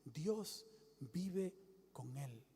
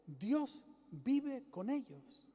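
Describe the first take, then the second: First: Slow and much softer; preacher voicing the heavenly voice, slow and soft; hushed heavenly voice. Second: Slow, drawn-out heavenly voice; preacher voicing the voice from heaven, slow. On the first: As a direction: breathe it out slowly, almost secret. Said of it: "Oí una voz que decía". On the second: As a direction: let the voice from heaven speak slowly. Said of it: "Oyó una voz que decía".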